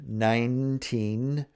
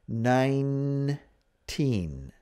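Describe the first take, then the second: First: It is said fast, with part of an ending lost. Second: It is said slowly, with each ending finished. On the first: "When you say it fast, you lose some of that ending" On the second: "Remember to finish up the nine"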